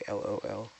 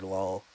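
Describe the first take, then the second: First: It is said as three separate letters. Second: It is said as a single word. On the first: "lots of people say" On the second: "I prefer it as a like a pronounced word"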